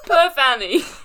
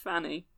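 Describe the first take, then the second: First: The name begins with a sounded P. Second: The name begins with an F sound. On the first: The speaker calls it wrong. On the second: The speaker calls it right.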